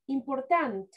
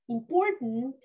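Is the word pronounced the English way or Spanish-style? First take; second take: Spanish-style; English. First: It is pronounced with Spanish-style sounds. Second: It is pronounced with English-style sounds. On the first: The speaker calls it wrong. "Pronouncing word like in Spanish" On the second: The speaker calls it right. "In English, we say"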